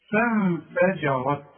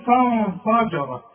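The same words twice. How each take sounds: First: فانفجرت slow, thin الف, heavy الراء; correct slow reading. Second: فانفجرت with heavy الف, slowly; wrong reading. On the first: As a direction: recite فانفجرت slowly and correctly. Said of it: "الف دي مرققة". (نطق صحيح بطيء) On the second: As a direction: mimic the wrong thick فانفجرت. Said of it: "اوعى تقول لي". (نطق خاطئ مفخم) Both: Shown as a demonstration.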